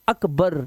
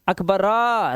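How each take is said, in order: First: The name ends on a bare 'r' consonant. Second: The name ends with a full 'ra' vowel sound. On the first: The speaker calls it right. "र आधा आ रहा है" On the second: The speaker calls it wrong. "अब ऐसे नहीं बोल रहे अकबरा अकबरा, रा नहीं बोल रहे आप"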